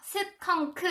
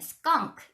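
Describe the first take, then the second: First: The word is split into three separate syllables. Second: The word is said as one single syllable. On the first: The speaker calls it wrong. "이렇게 세 개로 읽잖아요" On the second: The speaker calls it right. "이름절이기 때문에 스컹크 이렇게 말씀하셔야 되거든요"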